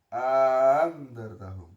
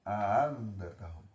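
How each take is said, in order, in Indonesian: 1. Vokal panjang mendahului hamzah yang dilemahkan. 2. Hamzah kedua dilemahkan, tidak penuh. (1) "bisa memasukkan alif bainal musahhalah" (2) "Bisa membaca gampang terhadap hamzah kedua"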